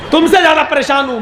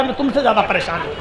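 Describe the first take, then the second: First: Fast, higher, laughing through it; laughing insistence. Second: Fast, softer, half under the breath; muttered aside. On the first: Crow repeats to the pigeon, laughing and fast. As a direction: repeat it with a laugh, pushing the point. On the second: Crow insists to the pigeon, quiet fast mutter. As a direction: toss it off quietly and quickly. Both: Retold or imitated.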